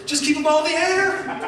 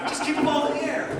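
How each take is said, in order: First: High, laughing, breezy take; laughing carefree motto. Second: Quick repeated motto. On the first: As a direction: toss it off with a laugh. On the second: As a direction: rattle it off again quickly. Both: Retold or imitated. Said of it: "my philosophy is".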